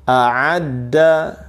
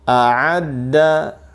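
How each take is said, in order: The two takes are said the same way.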